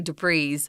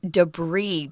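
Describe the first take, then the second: First: The final S sound is clearly pronounced. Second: The final S sound is left silent. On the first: The speaker calls it wrong. "Please do not say debris" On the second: The speaker calls it right. "they just sometimes don't like to say that final S. So that's why we're saying debris"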